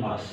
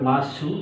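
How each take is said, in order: First: The word ends on the s sound. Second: The word ends with a clear u vowel. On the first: This is how the word is said in speech. "বলার সময় মাস" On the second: This is how the word is written. "লেখার সময় মাসু"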